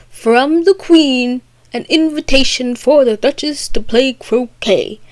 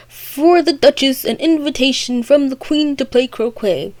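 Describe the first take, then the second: First: Higher, stately announcement, opening words stretched; proclaiming footman. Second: Lightly proclaimed footman's announcement; replying footman. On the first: First footman proclaims the invitation. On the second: Other footman repeats the invitation, lightly proclaimed. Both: Retold or imitated.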